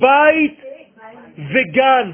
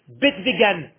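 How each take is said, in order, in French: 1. La première voyelle glisse de 'e' vers 'i'. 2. La première voyelle est un 'e' simple et bref. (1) "C'est bite vegan" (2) "Mais où vous avez vu que ça s'appelle bête vegan?"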